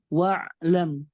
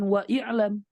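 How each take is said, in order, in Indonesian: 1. Vokal 'i' setelah 'wa' dihilangkan. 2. Vokal 'i' setelah 'wa' diucapkan. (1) "tetapi wa'lam" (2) "bukan wa i'lam"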